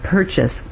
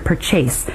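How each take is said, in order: First: The word stress follows the native English pattern. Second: The word stress follows the Singaporean pattern. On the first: The speaker calls it right. "instead of purchase" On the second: The speaker calls it wrong. "these are very commonly pronounced differently in Singapore. We hear purchase"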